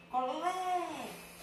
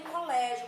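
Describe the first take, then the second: First: Colégio with a long, raised "lé"; stressed syllable in Colégio. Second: Said in the usual way. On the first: Shown as a demonstration. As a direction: draw out the middle syllable of Colégio, slow and high. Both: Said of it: "cadê a sílaba tônica".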